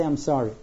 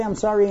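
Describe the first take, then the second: First: Said in the usual way. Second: "I'm sorry" lifted higher with mild emphasis; emphatic apology. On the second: Shown as a demonstration. Offender making amends to the person hurt, mildly emphatic apology. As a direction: press a little on "I'm sorry".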